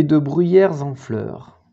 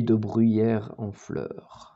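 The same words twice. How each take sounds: First: "bruyères en" linked with a z sound; liaison on the S. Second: "bruyères en" with no z sound between the words; no liaison. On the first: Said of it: "moi j'en aurais mis un". (« bruyères en » dit avec la liaison en z) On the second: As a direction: say "bruyères en" without linking the final s. Il n'y a pas de S à bruyère. (« bruyères en » dit sans liaison) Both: Shown as a demonstration.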